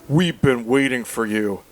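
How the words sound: It is said in a put-on Barney voice.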